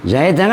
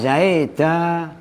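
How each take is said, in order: First: The word ends with a short vowel and n. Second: The word ends with a lengthened vowel, no n. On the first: "Zaidan kan begini" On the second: "kalau dibaca isbak"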